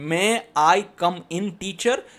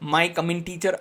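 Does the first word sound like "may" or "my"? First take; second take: may; my. First: The opening is a clear "may" then "I". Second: The opening sounds like "my", run together. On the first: The speaker calls it right. "અરે માય નથી ભાઈ" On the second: The speaker calls it wrong. "ઘણા વિદ્યાર્થીઓ એમ બોલશે"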